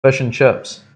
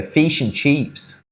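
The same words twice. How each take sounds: First: Kiwi accent. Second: "Fish and chips" slow, vowels pulled to "feesh" and "cheeps"; Australian accent. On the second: Showing how Australians say it, slow and drawn out. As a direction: stretch "Fish and chips" out like an Aussie. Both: Shown as a demonstration. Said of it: "What do they say?".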